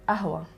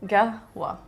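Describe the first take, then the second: First: It is said in her dialect, no initial consonant. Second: It is said the Bahraini way, starting with g.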